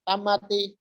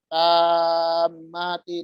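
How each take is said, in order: First: The vowel is cut short. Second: The vowel is held long. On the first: The speaker calls it wrong. "dibaca tamati" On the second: The speaker calls it right. "itu panjang"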